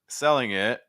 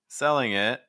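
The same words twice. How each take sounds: The two takes are said the same way.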